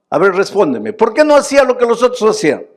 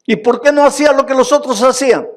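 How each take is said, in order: First: High, loud and fast, insisting; repeated demand. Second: Fast, high and loud, pressing the crowd; demanding question. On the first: Preacher insists the congregation answer, loud and fast. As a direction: hammer the same question again. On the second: Preacher challenges the congregation, fast loud demanding. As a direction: fire the question at them. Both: Acted.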